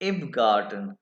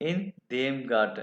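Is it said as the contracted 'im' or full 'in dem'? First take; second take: contracted; full. First: Two words are merged into one short syllable. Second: Two separate full words are said before the noun. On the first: "ये इकट्ठा मिला के इम बना" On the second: "इन का एन खत्म, देम का डे खत्म"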